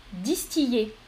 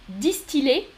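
First: Distiller said "dis-ti-yé". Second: Distiller said "dis-ti-lé". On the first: Teacher offers second choice, distiller with Y. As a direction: glide on Y in distiller. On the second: Teacher offers first choice, distiller with L. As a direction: sound the L in distiller. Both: Shown as a demonstration. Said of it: "Donc, L ou Y".

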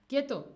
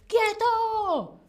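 First: Said in the usual way. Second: High, loud mock police "¡Quieto!"; imitating a policeman; police command. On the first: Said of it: "Quedarse quieto". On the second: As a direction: bark it like a cop stopping a thief. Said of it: "la policía dice".

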